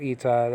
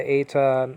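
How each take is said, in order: First: Eta said EE-tuh; modern pronunciation. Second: Eta said AY-tuh; older pronunciation. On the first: Teacher giving today's name for the letter, modern pronunciation. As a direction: open eta with a long ee. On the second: Teacher giving the Greek letter's name, older pronunciation. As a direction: open eta with the vowel of "they". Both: Shown as a demonstration. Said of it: "nowadays called eta".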